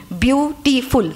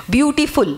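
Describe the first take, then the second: First: বিউটিফুল slowly broken into three syllables. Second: Said in the usual way. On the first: Shown as a demonstration. Teacher showing three syllables, বিউটিফুল said slowly in parts. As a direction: stretch out each syllable of বিউটিফুল. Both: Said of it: "এতে তিনটে syllable হলো".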